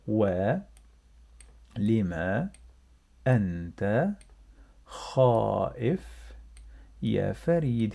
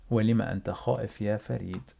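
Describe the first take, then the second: First: Each word set apart with long pauses; slow word by word. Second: Rattled off at full speed in one breath; fast natural speed. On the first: Teacher to learners, slow word-by-word reading. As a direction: spell the question out one word at a time. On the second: Teacher to learners, fast natural-speed reading. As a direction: run the whole question together quickly. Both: Shown as a demonstration. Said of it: "let's read together".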